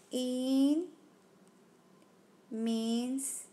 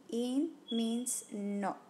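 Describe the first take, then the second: First: Said in the usual way. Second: Drawn-out, each word weighted; slow teaching emphasis; slow emphatic rule. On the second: Shown as a demonstration. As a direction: spell it out slowly for the student.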